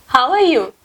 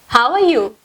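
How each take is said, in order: Both takes have the same delivery.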